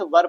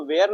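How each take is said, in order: First: वर said short, one syllable, "var"; correct pronunciation. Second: वेयर said as two syllables, "vey-ar"; wrong pronunciation. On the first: Teacher correcting students, saying वर as one short syllable. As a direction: give the right reading वर, short and firm. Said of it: "वर पढ़ते हैं". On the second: Teacher showing students the wrong reading वेयर. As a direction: show the mistaken childhood reading वेयर. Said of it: "इसको वेयर नहीं पढ़ते हैं". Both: Shown as a demonstration.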